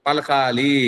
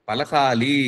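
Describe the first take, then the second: Both takes have the same delivery.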